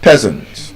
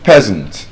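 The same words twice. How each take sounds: First: The first vowel is short. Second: The same.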